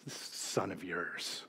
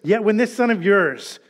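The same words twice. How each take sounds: First: Much softer, slow, spitting out son of yours; slow quiet disdain for this son of yours; bitter contempt. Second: Said in the usual way. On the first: Retold or imitated. Resentful older brother to father, slow quiet contempt. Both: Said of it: "can't even say brother".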